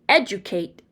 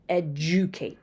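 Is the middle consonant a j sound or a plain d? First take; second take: plain d; j sound. First: The middle has a plain d sound. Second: The middle has a j-like sound.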